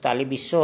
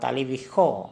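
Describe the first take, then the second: First: The last syllable starts with an s sound. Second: The last syllable starts with a kh sound. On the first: The speaker calls it wrong. "ऐसे तो तालीबिसो होता है" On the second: The speaker calls it right. "लेकिन उच्चारण होगा तालीबिखो"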